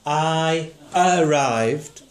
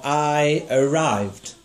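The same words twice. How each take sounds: First: I arrived, stress on arrived, slow and drawn out; teacher draws out arrived with weight on it. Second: I arrived, stress on I, slow and drawn out. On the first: Teacher to pupil, slow stress on arrived. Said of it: "would you sing the word". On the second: Teacher to pupil, slow stress on I. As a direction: lean on I and let arrived fall away. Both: Shown as a demonstration.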